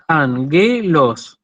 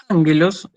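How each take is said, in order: First: Angelos said slowly, syllable by syllable, an-ge-los; split into syllables. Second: Said in the usual way. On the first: Shown as a demonstration. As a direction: break angelos into its syllables, stressing the first. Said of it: "yo la separo en sílabas". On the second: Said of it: "fíjense que yo la separo en sílabas".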